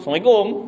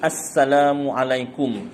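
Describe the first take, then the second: First: The greeting is said quickly and clipped short. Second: The greeting is said slowly and drawn out. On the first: The speaker calls it wrong. "pendek je, tak ada pahala langsung" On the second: The speaker calls it right. "Ambil masa sikit lah, dia memang panjang sikit beri salam yang betul ni"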